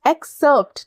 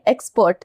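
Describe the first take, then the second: First: It is said as 'ex-serpt', with 'r' before 'p'. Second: It is said like 'expert', without the 'r' before 'p'. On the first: The speaker calls it right. "It's not एक, it's एक्स एक्सर्प्ट" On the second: The speaker calls it wrong. "बहुत लोग इसको pronounce करेंगे जल्दबाजी में"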